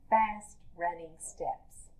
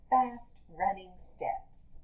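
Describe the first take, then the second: No difference in how they are said.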